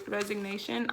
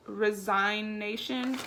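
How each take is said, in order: First: "resignation" retried as rez-ig-NAY-shun; corrected pronunciation. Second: "resignation" said slowly as rez-EYE-nation; unsure pronunciation. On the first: Reading the quit form aloud, retrying "resignation". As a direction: try "resignation" again with a g sound. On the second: Reading the quit form aloud, slow unsure "resignation". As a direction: stumble through "resignation" with a long I sound. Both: Shown as a demonstration. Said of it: "I don't know how to pronounce that".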